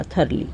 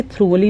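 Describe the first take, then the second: First: Thoroughly said as "THUR-lee", softly; correct pronunciation. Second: Thoroughly wrongly said as "THROO-vuh-lee"; mispronunciation demo. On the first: Teacher closes the spelling point, thoroughly correctly and softly as "THUR-lee". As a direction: say thoroughly in two soft beats, "thur-lee". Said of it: "इसलिए thoroughly नहीं होगा". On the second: Teacher explains the spelling, thoroughly mispronounced as "THROO-vuh-lee". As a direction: say thoroughly like "through-a-lee", "thr" run together. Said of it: "टीएचआर नहीं लगा इसलिए thoroughly नहीं होगा".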